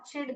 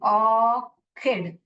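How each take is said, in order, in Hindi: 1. बीच का व्यंजन 'ch' की आवाज़ है। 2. बीच का व्यंजन 'k' की आवाज़ है। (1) "बहुत लोग इसको गलत पढ़ते हैं... च इड और चिड करके पढ़ते हैं" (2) "इसको क पढ़ना चाहिए"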